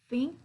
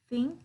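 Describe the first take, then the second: No difference in how they are said.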